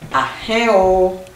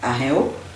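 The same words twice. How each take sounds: First: The pitch varies, with a marked accented syllable. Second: The pitch stays flat throughout the word. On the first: It means good morning. The speaker calls it right. "l'accent tonique est sur le i" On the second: It means nothing at all. The speaker calls it wrong. "si vous le dites de façon monocorde, ça n'a pas du tout de sens"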